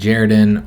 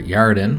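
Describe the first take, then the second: First: The name begins with a J sound. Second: The name begins with a Y sound. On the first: "how they pronounce the J" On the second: "We're going to say Yaredin"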